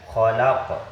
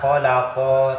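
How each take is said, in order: First: The word ends on a bouncing consonant. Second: The word ends with a final vowel sound. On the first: The reader is stopping at the end of the verse. "karena tempatnya ini di akhir ya, jadi bacanya itu khalaq" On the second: This is the full written form. "Padahal dibaca khalaqo"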